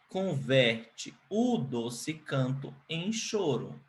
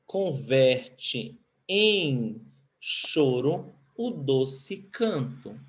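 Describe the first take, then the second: First: Slow, softer, plain order; direct-order version. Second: Very slow, "em" lifted; verse in inverted order. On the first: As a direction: rephrase it calmly in direct order. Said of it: "ordem inversa ou ordem direta". (versão em ordem direta, devagar e mais baixo) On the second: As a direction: read the poem line slowly. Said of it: "Tá na ordem inversa". (verso lido devagar, na ordem inversa) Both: Shown as a demonstration.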